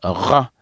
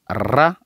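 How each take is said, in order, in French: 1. Le son r n'est pas roulé. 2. Le son r est roulé. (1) "Les Français, ils disent ra" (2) "en roulant les r"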